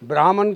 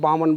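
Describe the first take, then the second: First: The word keeps the 'br' cluster and 'h' sound. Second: The word drops the 'r' and 'h' sounds. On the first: The word refers to a wise, learned person. The speaker calls it right. "ब्राह्मण की जगह" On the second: The word refers to a wicked person. The speaker calls it wrong. "Pronunciation अब गलत बोलते हैं"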